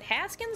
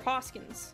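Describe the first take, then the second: First: The first vowel sounds like in 'has'. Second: The first vowel sounds like in 'hawk'.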